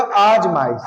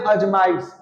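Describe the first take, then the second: First: आजमाइश with a long first aa, said as aajmaish; teacher gives the right form आजमाइश, long aa; correct spelling said. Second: अजमाइश with a short first a, said as ajmaish; अजमाइश said with a short a, the wrong way; teacher shows अजमाइश, short opening a; wrong spelling said. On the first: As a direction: stretch the opening aa of आजमाइश. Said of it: "इसका शुद्ध क्या होगा?". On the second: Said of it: "लेकिन अजमाइश क्या है? एक अशुद्ध वर्ड है". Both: Shown as a demonstration.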